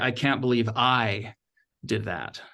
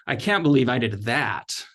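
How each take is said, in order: First: The stress falls on the word I. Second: The stress falls on the word that.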